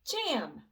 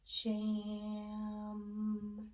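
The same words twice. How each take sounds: First: The word is said quickly as one unit. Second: The word is drawn out slowly, sounds sliding. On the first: "Now let's say it fast" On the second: "blend those three individual sounds so they slide together. We can hear each sound"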